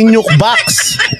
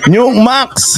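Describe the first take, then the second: First: The second part starts with a b sound. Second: The second part starts with an m sound. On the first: "hindi Nuke Box" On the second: "Wala silang B, M lahat"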